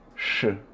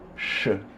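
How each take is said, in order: Both takes have the same delivery.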